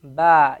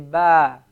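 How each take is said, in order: No difference in how they are said.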